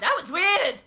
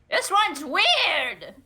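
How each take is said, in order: First: It is said in a normal voice. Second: It is said in an evil, diabolical parrot voice.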